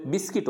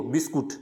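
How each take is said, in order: First: बिस्किट with silent U; correct pronunciation बिस्किट. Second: बिस्कुट with the U sounded; common mispronunciation बिस्कुट. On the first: Teacher correcting the common form, बिस्किट with short I. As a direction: say बिस्किट as bis-kit. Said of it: "बिस्किट होता है". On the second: Teacher quoting what most people say, बिस्कुट with U. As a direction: say बिस्कुट as bis-kut. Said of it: "ज़्यादातर क्या बोलते हैं इसको". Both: Shown as a demonstration.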